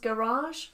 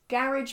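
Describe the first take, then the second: First: Said in a posh, Oxford-like accent. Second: Said in a plain, everyday accent.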